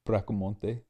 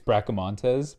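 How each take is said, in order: First: The name ends with a vowel. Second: The name ends with an s sound. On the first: "get rid of the S, is like Bracamonte" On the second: "It's Bracamontes"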